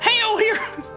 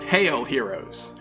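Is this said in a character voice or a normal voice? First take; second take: character; normal. First: It is spoken in a put-on character voice. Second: It is read in the speaker's normal voice.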